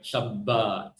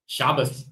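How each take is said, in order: First: "Shabbat" as shab-BAAT, weight on the end; second-syllable stress. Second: "Shabbos" as SHAH-bus, stressed first, s at the end. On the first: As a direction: lean long on the last syllable of "Shabbat". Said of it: "rather than the rest of us". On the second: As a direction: stress the start of "Shabbos", finish on s. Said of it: "pronounce the tav as a, as an S". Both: Shown as a demonstration.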